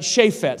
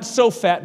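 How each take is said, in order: First: Shaphat said with a short a, SHA-phat; right reading Shaphat. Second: Sophat said with an o, SO-phat; wrong reading Sophat. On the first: Pastor correcting the name to Shaphat for listeners. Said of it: "well, not Sophat, but Shaphat". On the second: Pastor showing the congregation the wrong name Sophat. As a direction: say Sophat as the misreading. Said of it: "Some people thought it said Sophat". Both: Shown as a demonstration.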